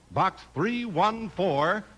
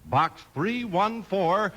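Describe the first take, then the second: No difference in how they are said.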